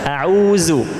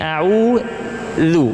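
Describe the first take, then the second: First: The middle consonant is a buzzing z sound. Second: The middle consonant is a soft th-like sound. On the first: The speaker calls it wrong. "Kalau ujung lidah masih di dalam mulut, berarti ini huruf za" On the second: The speaker calls it right. "ujung lidah harus terlihat seperti ini"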